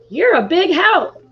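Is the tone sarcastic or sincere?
sincere. It is said warmly, as a sincere compliment. The listener really is helpful.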